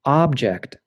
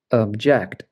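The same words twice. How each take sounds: First: OB-ject, with the stress on OB; first-syllable stress. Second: Ob-JECT, with the stress on JECT; weak first syllable in object, strong second. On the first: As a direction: say object as the noun, OB-ject. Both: Shown as a demonstration. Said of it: "it can change the pronunciation".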